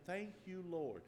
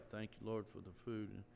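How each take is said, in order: First: Said in the usual way. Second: A man quietly mumbling grace over his food; mumbled prayer. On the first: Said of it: "open our mouths and say". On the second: Retold or imitated. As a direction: murmur the grace into your plate. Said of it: "you're mumbling".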